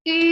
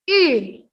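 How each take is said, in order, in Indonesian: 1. Nadanya tetap datar dan rata. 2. Nadanya turun tajam dengan tekanan. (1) "Kalau ada garis datarnya berarti kita harus baca I" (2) "Untuk nada terakhir"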